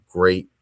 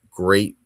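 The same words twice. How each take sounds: The two takes are said the same way.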